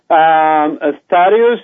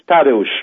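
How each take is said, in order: First: The name is pronounced the English way. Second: The name is pronounced the Polish way. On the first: "That's the English spelling" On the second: "The Polish pronunciation is Tadeusz"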